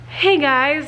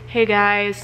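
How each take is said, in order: First: The voice is high and full of energy. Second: The voice is low, deflated and nasal. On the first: The speaker still has plenty of breath. "I go from like super" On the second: The speaker is out of breath. "to like nasally"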